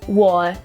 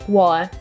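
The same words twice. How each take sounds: No difference in how they are said.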